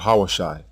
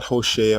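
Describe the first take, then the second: First: It is said as 'ha-wa-shai' with three syllables. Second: It is said as 'ho-shay-ah' with three syllables. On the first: "or Hawashai" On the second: "not Hoshea"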